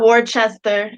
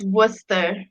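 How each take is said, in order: First: It is not said like the start of 'Worcestershire'. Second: It is said like the start of 'Worcestershire'. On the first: The speaker calls it wrong. "it's not Worcester" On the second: The speaker calls it right. "It's Worcester, like Worcestershire sauce"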